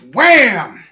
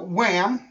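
First: The word is said forcefully, with emphasis. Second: The word is said flatly, without force. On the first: The speaker calls it right. "you have to pronounce it like you mean it" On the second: The speaker calls it wrong. "you didn't say it right"

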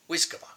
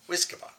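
Both takes have the same delivery.

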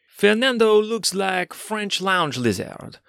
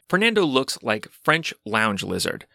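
First: It is read in an exaggerated French accent. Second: It is read in a plain, normal accent.

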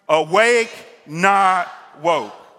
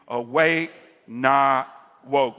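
First: It is said loudly with forceful emphasis. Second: It is said in a calm, plain way. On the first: "put some stank on it. Just go ahead and exclamation point" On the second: "Say that with me"

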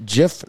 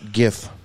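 First: The word begins with a soft J sound. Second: The word begins with a hard G sound. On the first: The speaker calls it right. "it's pronounced GIF, like the peanut butter" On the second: The speaker calls it wrong. "not GIF"

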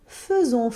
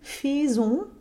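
First: The first syllable has a clear schwa vowel. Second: The first syllable has a full, non-schwa vowel. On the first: The speaker calls it right. "with a very clear schwa vowel in that first syllable" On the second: The speaker calls it wrong. "it isn't faisons"

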